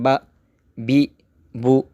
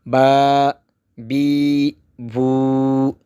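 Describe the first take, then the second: First: The vowels are kept short. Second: The vowels are stretched out long. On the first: "जब हम पड़ी हरकत पढ़ते हैं" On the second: "कड़ी हरकत में खींच कर पढ़ना होता है"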